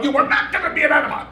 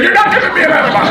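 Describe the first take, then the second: First: High, fast, pressed refusal through laughter; retold insistence. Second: High, fast, loud laughing protest; retold outburst. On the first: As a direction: dig in and refuse, pitched way up. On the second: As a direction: shout it down in panicked refusal. Refusing the enema, retold.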